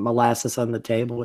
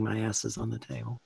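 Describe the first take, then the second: First: "molasses on the table" with tongue held, mushy and blurred; holding tongue with fingers. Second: Said in the usual way. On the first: Shown as a demonstration. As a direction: say "molasses on the table" while pinching your tongue. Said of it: "if you hold your tongue and say". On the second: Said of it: "it sounds like you're saying".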